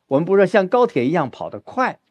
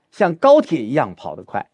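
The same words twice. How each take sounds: First: 高 in 高铁 stressed, end rising. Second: 高 in 高铁 punched; weight on 高铁, falling end; stress on 高铁. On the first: Teacher repeating the 高铁 example, rising. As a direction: lift the line, weight on 高铁. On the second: Teacher stressing 高铁 as an example, firm. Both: Shown as a demonstration.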